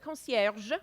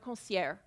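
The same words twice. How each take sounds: First: The final G sound is clearly pronounced. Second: The final G sound is dropped. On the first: The speaker calls it right. "you always pronounce the G. It's always a concierge" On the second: The speaker calls it wrong. "never a concierge"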